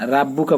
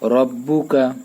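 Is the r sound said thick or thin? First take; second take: thin; thick. First: The r is thin, with an open a. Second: The r is thick, with a dark vowel. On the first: The speaker calls it wrong. "আকার দিয়ে পড়া যাবে না, রাব্বুকা বলা যাবে না" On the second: The speaker calls it right. "রটা মোটা করে বলতে হবে"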